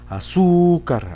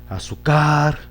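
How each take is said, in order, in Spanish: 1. El acento está en la segunda sílaba. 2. El acento está en la tercera sílaba. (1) "en la sílaba su" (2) "En la car"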